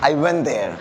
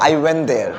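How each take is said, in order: No difference in how they are said.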